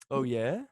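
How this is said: It sounds excited and eager.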